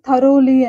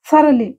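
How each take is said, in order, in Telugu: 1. మధ్య అక్షరంలో పూర్తి 'o' అచ్చు ఉంది. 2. మధ్య అక్షరంలో చిన్న, తగ్గిన అచ్చు ఉంది. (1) "థరోలీ కాదు ఇది"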